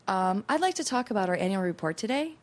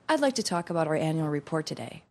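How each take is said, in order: First: The voice rises at the end, like a question. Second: The voice falls at the end, like a statement. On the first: The speaker sounds tentative and unsure. "It's a lot easier to say" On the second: The speaker sounds firm and assertive. "Making declarative statements is kind of intimidating"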